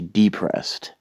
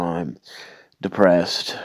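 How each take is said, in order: First: The stress is on the first syllable. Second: The stress is on the second syllable.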